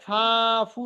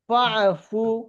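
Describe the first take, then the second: First: The first vowel is drawn out long. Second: The first vowel is short and joined on. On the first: The speaker calls it wrong. "এখানে কিন্তু হবে না ফা ফু, এরকম হবে না" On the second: The speaker calls it right. "এখানে টান না দিয়ে কি পড়বো?"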